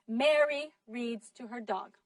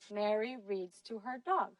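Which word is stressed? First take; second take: Mary; dog. First: The strongest stress falls on the word Mary. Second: The strongest stress falls on the word dog. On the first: It is Mary, not someone else, doing the reading. "ustedes acentuaron Mary" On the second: It is the dog, not something else, being read to. "she put a lot of stress on the word dog"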